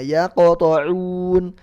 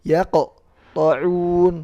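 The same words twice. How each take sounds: First: The q sound runs straight into the next letter. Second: There is a pause after the q sound. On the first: The speaker calls it right. "Langsung ke huruf setelahnya" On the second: The speaker calls it wrong. "Jadi nggak boleh yaqta'un"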